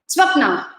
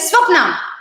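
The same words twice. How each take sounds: First: The name is said in a calm, mild tone. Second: The name is said in a sharp, aggressive tone. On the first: The speaker is not upset with the listener. The speaker calls it right. "it's okay" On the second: The speaker is annoyed with the listener. The speaker calls it wrong. "it's a little more aggressive"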